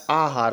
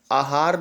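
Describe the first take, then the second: First: आहार begun with long "aa", as aa-haar; correct long vowel. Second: आहार begun with short "a", as a-haar; short-vowel mistake. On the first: Teacher correcting students, आहार as aa-haar. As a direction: draw out the first vowel of आहार. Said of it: "आ पे आ की मात्रा होता है". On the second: Teacher showing the wrong form, आहार as a-haar. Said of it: "आहार नहीं होता है". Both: Shown as a demonstration.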